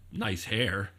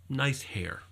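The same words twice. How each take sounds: First: It sounds like a sarcastic insult. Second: It sounds like a sincere compliment.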